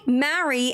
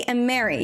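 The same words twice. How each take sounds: First: "marry" with an open a as in cat; distinct "marry" vowel. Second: "Mary" with an eh vowel, as in merry. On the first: Streamer showing chat that marry differs, "marry" with open a. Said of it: "even though it sounds different". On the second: Streamer showing chat the merged sound, "Mary" said as "merry". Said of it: "sounds the same to me". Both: Shown as a demonstration.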